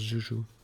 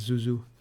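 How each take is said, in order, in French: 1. Le nom commence par le son zh. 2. Le nom commence par le son z. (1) "mais ça se prononce Joujou" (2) "je pensais que ça se prononçait Zouzou"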